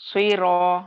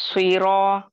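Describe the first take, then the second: Both takes have the same delivery.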